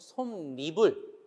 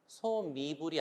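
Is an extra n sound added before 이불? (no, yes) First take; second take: yes; no. First: An n sound is added before 이불. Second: It is said without an added n sound. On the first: The speaker calls it right. "니은이 들어가서 발음을 하고요" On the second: The speaker calls it wrong. "아니고"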